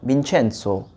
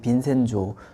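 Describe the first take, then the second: First: The middle consonant is a 'ch' sound. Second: The middle consonant is an 's' sound. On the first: This is the original Italian pronunciation. "정확히 이탈리아어로 발음을 하자면은 빈첸초가 맞아요. 민첸소 이렇게 발음을 하는데" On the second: This is an English-influenced pronunciation. "영어로 발음이 돼서 그런지 빈센조 좀 약해지더라고요"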